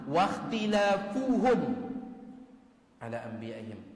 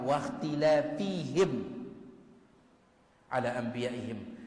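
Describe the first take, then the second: First: The first word ends with a 'u' vowel, 'fuhum'. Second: The first word ends with an 'i' vowel, 'fihim'. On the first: They perished from opposing their prophets even once. The speaker calls it right. "baris dhammah" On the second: They perished from opposing their prophets too often. The speaker calls it wrong. "baris bawah"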